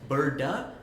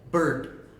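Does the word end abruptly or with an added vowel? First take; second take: added vowel; abruptly. First: The word ends with an added trailing vowel. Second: The word ends abruptly on the final consonant. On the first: "like birda" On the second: "and then just cut it"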